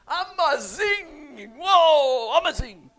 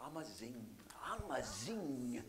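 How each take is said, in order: First: Amazing drawn out high and loud in a hammed-up Italian-South African accent. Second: Amazing said softly with a South African lilt; a quiet, lilting South African amazing. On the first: Pastor jokingly imitating South Africans to the congregation, loud hammed-up Italian-tinged accent. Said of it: "South African with an Italian accent". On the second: Pastor showing how South Africans say amazing, softly. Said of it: "That's what they say in South Africa". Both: Shown as a demonstration.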